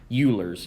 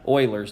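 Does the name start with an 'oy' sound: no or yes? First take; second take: no; yes. First: The name does not start with an 'oy' sound. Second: The name starts with an 'oy' sound. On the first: The speaker calls it wrong. "Euler's is not correct" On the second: The speaker calls it right. "It's pronounced Oilers"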